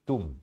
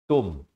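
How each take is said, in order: First: The vowel is a short, crisp u. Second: The vowel is drawn out toward an o. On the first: The speaker calls it right. "tapi baca tum ya" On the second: The speaker calls it wrong. "Jangan baca tum"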